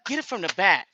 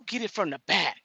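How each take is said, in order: First: "Get it from the back" repeated louder, each word pressed; emphatic repeat. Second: Said in the usual way. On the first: Shown as a demonstration. She repeats the tip to viewers, louder and emphatic. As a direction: hammer the advice home, louder. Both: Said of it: "Y'all remember this".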